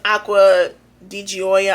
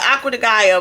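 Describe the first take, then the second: First: The last word sounds like 'joy-uh'. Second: The last word sounds like 'guy-uh'. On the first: This is how others say the name should be said. The speaker calls it right. "they said it's Aqua di Gioia" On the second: This is how the speaker usually says the name. The speaker calls it wrong. "I call it Aqua de Gaia"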